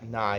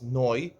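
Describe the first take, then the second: First: The vowel sounds like 'ah'. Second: The vowel sounds like 'oh'. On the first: The speaker calls it wrong. "I didn't pronounce the word correctly" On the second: The speaker calls it right. "it's noi. ... The Mishnah is bekamatz"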